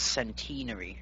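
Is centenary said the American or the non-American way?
non-American. It is said the non-American way. "over here it's centenary"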